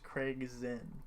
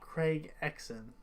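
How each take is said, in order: First: The surname begins with a z sound. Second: The surname begins with an eks sound. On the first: The speaker calls it right. "His name's Craig Zinn" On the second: The speaker calls it wrong. "I used to call him Craig Exon"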